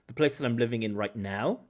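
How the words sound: The stress falls on the words right now. The speaker calls it right. "or even right now"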